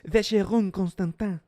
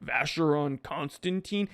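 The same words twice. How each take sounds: First: Vacheron Constantin with uvular r and nasal French ending; French pronunciation. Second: Put-on Vacheron Constantin with American r and "con-stan-teen"; American pronunciation. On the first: Acted. French snob correcting the American's version, French pronunciation. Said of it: "French snobs will be like". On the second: Snob quoting an American's mistake back, American pronunciation. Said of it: "French snobs will be like, "Did you just say".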